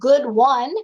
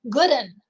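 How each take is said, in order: First: The word 'one' is said in full. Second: The word 'one' is reduced to 'un'. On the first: This is the standard way to say it. "instead of good one" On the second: This is how the character talks. "he says good 'un"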